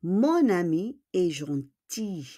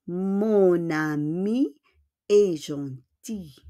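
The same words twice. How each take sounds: First: Said in the usual way. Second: Slow, drawn-out "Mon ami", pause, then "est gentil"; slow demonstration. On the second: Shown as a demonstration. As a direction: model "Mon ami est gentil" slowly in two separate chunks.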